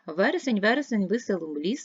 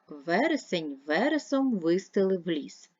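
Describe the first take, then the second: First: The line is read at a very quick pace. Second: The line is read at a slow pace. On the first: "Тепер швидко" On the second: "прочитайте скоромовку повільно"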